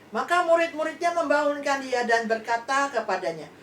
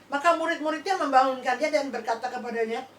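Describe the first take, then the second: The two takes are said the same way.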